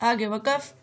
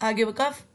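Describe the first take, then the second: The two takes are said the same way.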